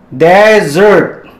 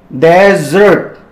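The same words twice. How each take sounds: The two takes are said the same way.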